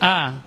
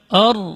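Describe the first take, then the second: First: The vowel is sounded light and thin. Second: The vowel is sounded heavy and thick. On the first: The speaker calls it right. "Harus dibaca tetap tipis" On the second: The speaker calls it wrong. "itu sudah dibaca tebal A-nya, maka di sini keliru"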